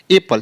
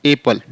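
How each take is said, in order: First: "एप्पल" with a held double p, pitched higher; "एप्पल" said the wrong way, a long double p. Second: "एप्पल" with a single short p, like "epel"; "एप्पल" said the right way, no doubled p; simple single p. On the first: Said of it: "एप्पल नहीं बोलना है". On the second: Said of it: "simple बोलना है". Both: Shown as a demonstration.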